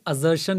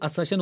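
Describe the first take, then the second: First: The middle consonant is a buzzing z sound. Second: The middle consonant is a hissing s sound. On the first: The speaker calls it wrong. "अजर्शन नहीं होती है" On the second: The speaker calls it right. "ये असर्शन होती है"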